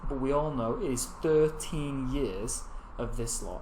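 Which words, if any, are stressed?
thirteen years. The words thirteen years are strongly stressed. "it creates emphasis"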